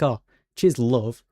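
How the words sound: It is said in a flirty tone.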